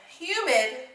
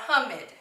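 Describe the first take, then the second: First: "humid" with U as "yoo"; long U. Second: "humid" misread as HUM-id; short U. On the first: Teacher contrasting vowel sounds for pupils, "humid" with long U. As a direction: say "humid" as HYOO-mid, open long vowel. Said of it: "difference between this U sound". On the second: Teacher showing a closed-vowel misreading, "humid" with short U. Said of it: "the vowel is gonna be short". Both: Shown as a demonstration.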